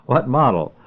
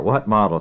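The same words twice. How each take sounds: First: Second try at the question, pitched up. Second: Said in the usual way. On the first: A narrator's reading. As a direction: raise it so he finally hears. Clerk repeats unheard question.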